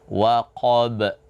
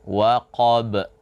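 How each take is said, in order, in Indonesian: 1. Huruf b terakhir diakhiri dengan hentian glotis. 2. Huruf b terakhir diakhiri dengan hentian glotis.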